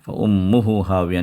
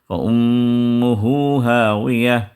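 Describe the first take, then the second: First: The vowel after 'hu' is short, not stretched. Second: The vowel after 'hu' is stretched out long. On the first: The speaker calls it wrong. "नहीं पढ़ना" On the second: The speaker calls it right. "उस हा को खींच के पढ़ना है"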